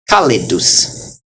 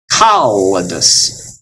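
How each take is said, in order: First: Kalidus as ka-li-dus; one short L in kalidus, starting the second syllable; single L. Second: Kalidus as kal-lidus, with a long held L; double L. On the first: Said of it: "will go with the li". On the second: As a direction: linger on both L's in kalidus. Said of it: "then they go separate directions". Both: Shown as a demonstration.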